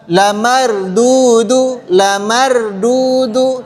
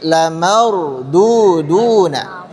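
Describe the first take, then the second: First: Slow "lamardudu" without the final na; wrong reading. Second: Slow "lamarduduna" with the ending na; correct reading. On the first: Teacher shows the forbidden reading slowly. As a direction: draw out "lamardudu", stopping short. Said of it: "Jadi jangan dibaca". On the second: Teacher gives the right reading slowly. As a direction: draw out "lamarduduna", full ending na. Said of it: "tapi lamarduduna". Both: Shown as a demonstration.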